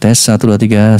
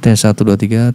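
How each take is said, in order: First: The voice sounds brighter and clearer. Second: The voice sounds duller and less clear. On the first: "lebih clear suaranya, lebih bright" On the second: "itu kan tanpa menggunakan ini ya"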